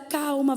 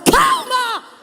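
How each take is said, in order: First: It is said softly and calmly. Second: It is said loudly and forcefully. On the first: It makes an anxious person more nervous. The speaker calls it wrong. "você diz assim para ela" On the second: It steadies an anxious person so they listen. The speaker calls it right. "Mas se você falar"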